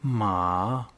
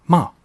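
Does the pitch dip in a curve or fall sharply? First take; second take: dips; falls. First: The pitch dips low in a curve. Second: The pitch falls quickly and forcefully. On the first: "Conseil pour prononcer le troisième ton" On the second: "Le quatrième ton est bas et descendant. Je le qualifierais d'explosif"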